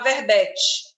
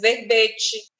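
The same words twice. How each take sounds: First: The stressed e is pronounced open. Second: The stressed e is pronounced closed. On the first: The speaker calls it wrong. "tem uma tendência de falar verbete" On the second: The speaker calls it right. "timbre fechado"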